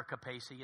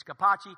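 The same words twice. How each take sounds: First: Capacci said as "kuh-PAY-see"; mispronounced surname. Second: Capacci said as "kuh-PAH-chee"; correct surname pronunciation. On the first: Correcting people on his surname, Capacci wrongly said "kuh-PAY-see". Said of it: "It's never Capacci". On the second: Showing his surname's right form, Capacci said "kuh-PAH-chee". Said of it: "It's Capacci". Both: Shown as a demonstration.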